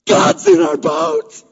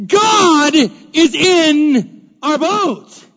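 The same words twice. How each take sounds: First: High, loud, slow declaration; excited exclaim. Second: "God" hit hard, words drawn out very slowly; stress on God. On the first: Preacher telling the church God is aboard, high and loud. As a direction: proclaim it with awe. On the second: Preacher repeating to the church, "God" stressed and drawn out slowly. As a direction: lean on "God" and stretch every word. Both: Real, not acted.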